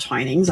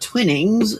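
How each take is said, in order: First: The first vowel is a long 'eye' sound. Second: The first vowel is a short 'i' sound. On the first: The speaker calls it right. "I didn't know it was pronounced Twinings" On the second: The speaker calls it wrong. "that means it's a short I. So I pronounced it Twinnings"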